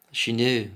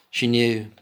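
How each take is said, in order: Both takes have the same delivery.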